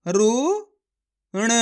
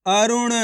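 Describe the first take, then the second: First: अरुण stretched slowly, syllable by syllable; slow sounding out. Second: Said in the usual way. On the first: Shown as a demonstration. Teacher sounding out अरुण for children. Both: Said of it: "मेरे तरीके पे गौर करना है".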